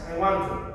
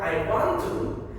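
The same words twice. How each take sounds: First: The words blend together into one reduced form. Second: Each word is said separately and fully.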